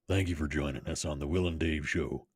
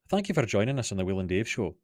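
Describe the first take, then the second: First: It is said in a deep American cowboy voice. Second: It is said in a general Scottish accent. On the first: "if I can manage a Sam Elliott" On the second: "general Scottish"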